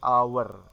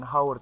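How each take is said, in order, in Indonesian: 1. Kata ini diawali dengan bunyi vokal. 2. Kata ini diawali dengan bunyi h. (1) "tapi our" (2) "dibaca bukan haur"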